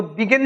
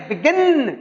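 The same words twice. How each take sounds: First: बिगिन without the punch on गिन; the rejected way of saying बिगिन, गिन left unstressed; stress not on गिन. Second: बिगिन with गिन higher and falling; stress on second syllable. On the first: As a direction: say बिगिन with no weight on its second syllable. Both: Shown as a demonstration. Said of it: "तो बिगिन नहीं है".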